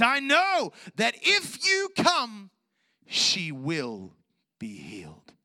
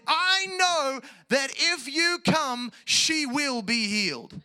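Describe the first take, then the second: First: High slow cry falling to a whisper; ringing shout that sinks into hushed certainty; fervent declaration of faith. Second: High, slow, loud proclamation throughout; ringing shout of acted confidence; confident declaration. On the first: Retold or imitated. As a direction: shout it out, then hush the last words. Acting Jairus's declaration of faith. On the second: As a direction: proclaim it with full conviction to the end. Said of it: "He came with confidence and said".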